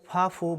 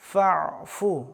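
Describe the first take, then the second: First: Fa runs straight into fu with no throat sound. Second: A pressed throat sound comes between fa and fu. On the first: The speaker calls it wrong. "সরাসরি ফাফু বললে হবে না" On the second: The speaker calls it right. "মাঝখানে আইন অক্ষরের উচ্চারণ করতে হবে"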